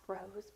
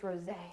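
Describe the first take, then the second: First: The word ends on its final consonant sound. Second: The word ends with an added 'ay' vowel. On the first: "not rose" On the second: "maybe it's rosé"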